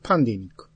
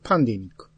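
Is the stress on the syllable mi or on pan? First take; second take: pan; pan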